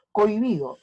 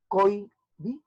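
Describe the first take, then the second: First: Said in the usual way. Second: "Cohibido" split as coi-bi-do; syllable by syllable. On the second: Shown as a demonstration. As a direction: pause between the syllables of "Cohibido", H silent. ("Cohibido" separado en sílabas, coi-bi-do) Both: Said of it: "Por lo tanto, se juntan".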